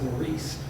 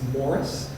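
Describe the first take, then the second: First: It is said the French way, like Maurice. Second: It is said the Irish way, like Morris. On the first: "the French one is Maurice" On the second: "the Irish pronunciation of M A U R I C E is Morris"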